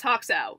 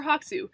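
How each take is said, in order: First: "Hoxow" ending in an "ow" sound; alternative pronunciation. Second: "Hoxu" ending in an "oo" sound; alternative pronunciation. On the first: Host gives her online name, "Hoxow" pronounced with final "ow". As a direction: say "Hoxow", second syllable rhyming with cow. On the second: Host offers other name reading, "Hoxu" pronounced with final "oo". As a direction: say "Hoxu", second syllable rhyming with zoo. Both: Shown as a demonstration. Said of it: "however you wanna say it".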